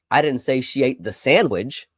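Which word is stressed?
sandwich. The word "sandwich" carries the main stress. She ate something different. "She ate something else"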